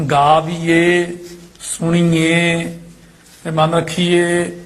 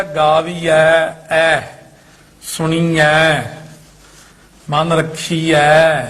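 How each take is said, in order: First: Very slow ਗਾਵੀਏ, ਸੁਣੀਏ with long close e; mistaken e endings. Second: Very slow ਗਾਵੀਐ, ਸੁਣੀਐ with long open ai; written ai endings. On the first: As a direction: stretch the wrong e at the end of ਰੱਖੀਏ. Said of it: "ਇਹ ਉਹ ਸਾਰੀਆਂ ਈੜੀਆਂ ਲਾਤੀਆਂ". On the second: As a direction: stretch the open ai ending of ਰੱਖੀਐ. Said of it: "ਇੱਥੇ ਲਿਖਿਆ". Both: Shown as a demonstration.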